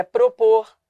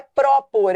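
First: "propor" with a closed, weak prô; correct closed vowel. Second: "propor" as "pró-por", open stressed ó; wrong open vowel. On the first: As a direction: close the first o of "propor", stress the end. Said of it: "é propor". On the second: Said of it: "Não é propor". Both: Shown as a demonstration.

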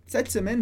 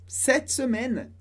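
First: Said in the usual way. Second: Slow, drawn-out French demonstration; slow model phrase. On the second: Shown as a demonstration. French teacher models the phrase for learners, slowly. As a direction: stretch out both words for learners.

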